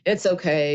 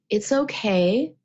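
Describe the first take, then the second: First: It is said in a curt, dismissive tone. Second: It is said in a warm, gentle tone.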